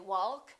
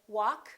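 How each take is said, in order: First: The L sound is pronounced. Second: The L sound is silent. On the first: The speaker calls it wrong. "We don't say walk and talk" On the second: The speaker calls it right. "we say walk"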